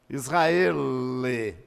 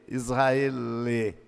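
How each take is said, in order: Both takes have the same delivery.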